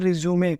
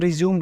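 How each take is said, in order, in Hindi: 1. शब्द के अंत में एक अतिरिक्त 'ay' स्वर जुड़ा होता है। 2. शब्द सादी 'm' ध्वनि पर खत्म होता है। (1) "इसका मतलब होता है रिज्यूमे।" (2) "बहुत सारे लोग इसको रिज्यूम बोलते हैं, वो गलत है।"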